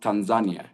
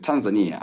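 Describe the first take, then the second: First: It is said the way Tanzanians say it. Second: It is said the way foreigners say it. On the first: "But for us, we pronounce" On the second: "most people and foreigners pronounce"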